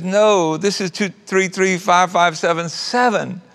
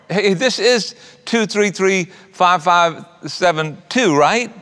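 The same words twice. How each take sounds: First: Lightly voiced young mom stating "two three three five five seven seven"; a hint of a puzzled daughter correcting a caller; correcting the number. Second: Lightly voiced older lady reading out "two three three five five seven two"; a hint of a sweet old lady checking a phone number; kind lady checking the number. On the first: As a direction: set the caller straight, a touch higher. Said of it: "And she says". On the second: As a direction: ask it brightly, a touch higher. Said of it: "And the lady said".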